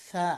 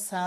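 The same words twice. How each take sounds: First: সা as th, tongue tip on teeth tips; correct th. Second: সা with a plain s, like the letter sin; wrong plain s. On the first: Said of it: "সাকে কখনো সা বলা যাবে না". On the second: Teacher warning against the sin sound, plain s. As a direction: mistaken s in সা in place of th. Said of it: "সা বলা যাবে না". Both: Shown as a demonstration.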